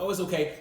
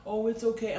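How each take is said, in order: First: Higher, cooing comfort; mock soothing. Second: Put-on higher, cooing comfort to a child; mock soothing. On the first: Father mimics a parent soothing a child, lightly cooing. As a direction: coo over a hurt kid. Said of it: "You're like". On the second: Father mimics mother soothing their crying son, lightly cooing. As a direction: coo it like a doting mother. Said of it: "you're like".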